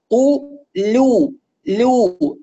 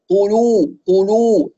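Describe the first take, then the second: First: قلو said very slowly with a thin, clear l; light laam. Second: قلو with a thick, dark l; heavy laam. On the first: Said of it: "اللام مرققة". (لام مرققة) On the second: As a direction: darken the l in قلو. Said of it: "فنسمع اللام مفخمة". (لام مفخمة خطأ) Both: Shown as a demonstration.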